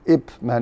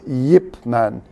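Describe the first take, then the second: First: The name starts with a vowel sound. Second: The name starts with a y sound. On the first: The speaker calls it wrong. "Not Ip Ip Man" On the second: The speaker calls it right. "when you actually pronounce, it's a y"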